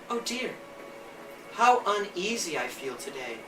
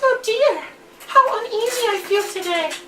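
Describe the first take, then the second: First: It is said in the narrator's own voice. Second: It is said in Little Red's character voice.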